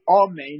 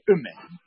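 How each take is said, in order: First: The first vowel is a full o sound. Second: The first vowel is a short reduced sound. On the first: "instead of pronouncing the aleph with a comet" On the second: "you would pronounce it with a shiva"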